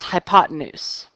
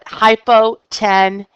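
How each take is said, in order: First: The word is said with its usual spoken pronunciation. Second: The word is sounded out the way it is spelled. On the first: "but it is pronounced hypotenuse" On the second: "I spell it hypotenuse"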